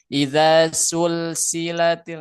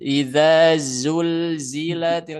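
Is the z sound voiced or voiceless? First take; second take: voiceless; voiced. First: The z sounds are hissed with breath only. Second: The z sounds are buzzed with the voice. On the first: The speaker calls it wrong. "Jadi tidak idza sulsilatil, nah hati-hati, bukan gitu" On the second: The speaker calls it right. "karena si zai nggak punya hamas, nggak punya aliran nafas. Dia hanya aliran suara saja"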